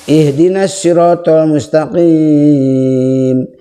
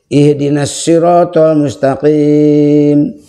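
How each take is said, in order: First: The final long vowel is held very long. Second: The final long vowel is held moderately long. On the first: "bisa enam harokat" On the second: "bisa empat"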